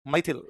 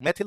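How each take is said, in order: First: "मैथिल" with an ai glide, MAI-thil; two-matra vowel. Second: "मैथिल" with a plain e, like "मेथिल"; wrong single-matra vowel. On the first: Teacher corrects students on the name, "मैथिल" said MAI-thil. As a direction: open the first vowel of "मैथिल" into ai. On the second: Teacher shows students the mistake, "मैथिल" mispronounced as MEH-thil. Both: Shown as a demonstration. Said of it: "एक मात्रा नहीं है, दो मात्रा है".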